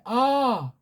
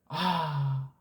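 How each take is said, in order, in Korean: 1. 날카롭게 아파서 내는 비명처럼 들려요. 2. 안도의 한숨처럼 들려요. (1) "누가 꼬집었을 때 아, 아파가지고" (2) "배가 엄청 고팠는데 어떻게 하다 그 메리치 조그만 거 하나 발견했을 때 아"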